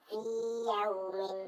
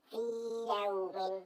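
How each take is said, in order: The two takes are said the same way.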